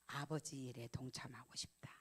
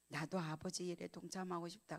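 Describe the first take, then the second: First: Moved whisper. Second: Said in the usual way. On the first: Retold or imitated. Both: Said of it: "하는 말이 뭔지 아세요".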